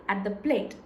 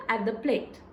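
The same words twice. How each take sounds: The two takes are said the same way.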